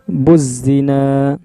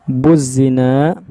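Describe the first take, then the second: No difference in how they are said.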